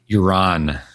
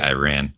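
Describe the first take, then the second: First: It is pronounced in a non-American way. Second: It is pronounced the American way. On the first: The speaker calls it right. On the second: The speaker calls it wrong.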